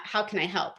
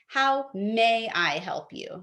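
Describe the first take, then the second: First: Said in the usual way. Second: "How may I help you?" slow, leaning on "may"; formal phrasing. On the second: Shown as a demonstration. Teaching callers to say "may", slow and deliberate. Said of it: "note that I'm saying".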